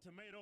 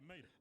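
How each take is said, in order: First: Every sound of the word is fully pronounced. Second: The word is clipped in a Southern way. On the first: "I don't say tomato" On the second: "I say mater"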